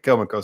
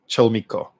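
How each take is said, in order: First: The name begins with a hard K sound. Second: The name begins with a CH sound. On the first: The speaker calls it wrong. "I just said Kelmico, so I'm probably wrong" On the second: The speaker calls it right. "So you pronounce it like that"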